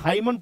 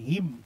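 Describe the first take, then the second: First: It is said as two syllables ending in n. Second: It is said as one syllable ending in m. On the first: The speaker calls it wrong. "बहुत लोग इसको हाइमन पढ़ लेता है" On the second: The speaker calls it right. "लेकिन इसको हिम पढ़िएगा"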